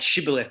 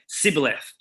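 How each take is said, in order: First: The word begins with an 'sh' sound. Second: The word begins with a plain 's' sound. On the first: This is the expected pronunciation. The speaker calls it right. "It's supposed to say S H Shibboleth" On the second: The speaker is an outsider from another tribe. The speaker calls it wrong. "he would say Sibboleth, because people from Ephraim could not pronounce the word correctly"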